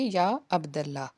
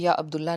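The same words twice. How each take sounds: First: 'Abd' is followed by an 'a' vowel. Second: 'Abd' is followed by an 'u' vowel. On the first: The speaker calls it right. "मंसूब होता है" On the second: The speaker calls it wrong. "नहीं पढ़ेंगे"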